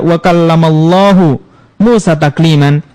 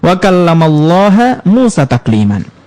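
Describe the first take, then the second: First: Allah ends with a u vowel. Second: Allah ends with an a vowel. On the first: God is the one who spoke to Moses. The speaker calls it right. "lafaz jalalah Allahu harokatnya dhammah" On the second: Moses is the one who spoke to God. The speaker calls it wrong. "Cuma dirubah harokat dari dhammah menjadi fathah"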